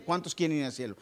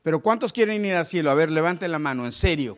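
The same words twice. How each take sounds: First: Said in the usual way. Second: Rousing call. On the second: Real, not acted. The pastor challenges the church, loud and rousing. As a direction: fire up the congregation. Preacher rallies the congregation.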